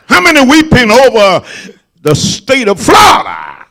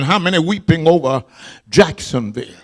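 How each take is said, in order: First: Preaching shout. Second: Quick hushed asking, voice dropping low; quiet, fast question. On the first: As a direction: belt it to the whole church. Preacher repeats it louder. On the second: Preacher to congregation, hushed and fast. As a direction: murmur it before the shout comes. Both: Acted.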